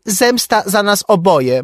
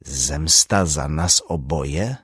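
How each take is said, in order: First: High, loud "Zemsta" with a fall; high agitated quote; shrill quoting. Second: Slow, questioning, rising on "oboje"; slow puzzled echo; puzzled repeat. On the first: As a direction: hurl the note's words. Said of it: "Napisał". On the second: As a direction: mull it over frowning. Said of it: "powtórzył Strajk". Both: A narrator's reading.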